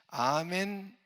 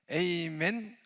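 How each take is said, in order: First: The first vowel is said as 'ah'. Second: The first vowel is said as 'ay'.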